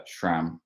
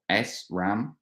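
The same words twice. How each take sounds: First: "sram" run together as one syllable; sram as one word. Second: "S ram" with the S spelled out as ess; S ram, letter separate. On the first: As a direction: say "sram" as a single word, shram. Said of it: "the right way to pronounce". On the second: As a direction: say "S ram" in two parts, ess then ram. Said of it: "as some people say". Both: Shown as a demonstration.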